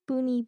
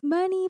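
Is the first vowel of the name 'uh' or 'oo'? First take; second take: oo; uh. First: The first vowel sounds like 'oo'. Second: The first vowel sounds like 'uh'. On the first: The speaker calls it wrong. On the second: The speaker calls it right.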